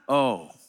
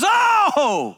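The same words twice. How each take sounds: First: It is said flatly, without emotion. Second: It is said with excited surprise.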